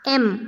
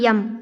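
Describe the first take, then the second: First: It begins with a plain vowel sound. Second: It begins with a y sound. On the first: The speaker calls it right. "एम पढ़ेंगे" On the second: The speaker calls it wrong. "यम नहीं पढ़ेंगे"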